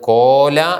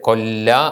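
First: The first vowel is long before a single consonant. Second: The first vowel is short before a doubled consonant. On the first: "കോല എന്നാണ് വായിക്കേണ്ടത്" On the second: "ഇരട്ടിച്ച് കൊല്ല എന്നാകുന്നു"

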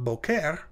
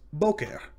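First: The stress is on the second syllable. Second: The stress is on the first syllable. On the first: The speaker calls it wrong. "but it's not boker" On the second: The speaker calls it right. "it's boker"

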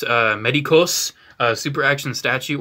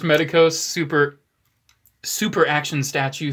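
First: It is said with a Spanish accent. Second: It is said with a plain English accent.

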